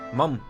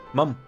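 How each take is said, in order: No difference in how they are said.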